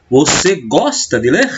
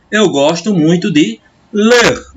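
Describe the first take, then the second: First: "Você gosta de ler?" said slowly with the pitch lifted at the end; question tune. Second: "Eu gosto muito de ler" said slowly as a flat statement, falling at the end; statement tune. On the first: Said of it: "a entonação modifica-se". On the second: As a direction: read "Eu gosto muito de ler" as a calm, slow declaration. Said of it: "uma frase declarativa". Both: Shown as a demonstration.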